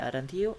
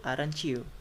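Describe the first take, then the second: First: "aren't you" as two words, rising; unblended "aren't you"; unlinked AREN'T YOU. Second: "aren't you" blended as "arenchoo"; falling, linked "aren't you" with ch; assimilated AREN'T YOU. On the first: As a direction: keep the t plain before "you" in "aren't you". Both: Shown as a demonstration. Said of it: "This is assimilation".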